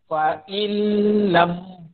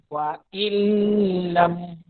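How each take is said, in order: No difference in how they are said.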